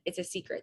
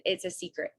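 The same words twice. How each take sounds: First: Softly dropped secret; hushed confiding. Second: Said in the usual way. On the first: Retold or imitated.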